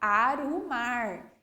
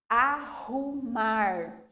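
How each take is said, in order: First: The r is a weak, short tap. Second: The r is a strong, long sound. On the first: The speaker calls it wrong. "se eu fizesse apenas um R" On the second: The speaker calls it right. "de uma maneira mais forte e um pouquinho mais demorada"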